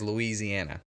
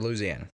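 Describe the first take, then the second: First: It uses the general American pronunciation. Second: It uses the local Louisiana pronunciation. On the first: This is how people elsewhere in the country say it. "the rest of the United States says Louisiana" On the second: This is how people in the state itself say it. "You go to Louisiana and they say Louisiana"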